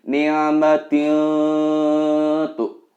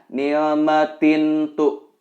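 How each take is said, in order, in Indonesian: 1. Huruf n sebelum t samar dan bersengau. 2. Huruf n sebelum t dibaca dengan jelas. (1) "Harus dibaca samar" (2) "Tidak diperkenankan membacanya"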